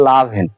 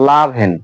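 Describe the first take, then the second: No difference in how they are said.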